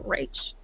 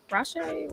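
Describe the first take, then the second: First: "Rach" as in the start of Rachel, with ch; pronounced like Rachel. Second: "Rashe" with a soft sh, higher and questioning; tentative pronunciation. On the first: Host guessing a viewer's name, "Rach" as in Rachel. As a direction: say "Rach" softly, rhyming with the letter H. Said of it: "like Rachel". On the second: Host guessing a viewer's name, "Rashe" with sh, tentative. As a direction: try "Rashe" softly with a sh sound, unsure. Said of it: "is it Rash". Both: Shown as a demonstration.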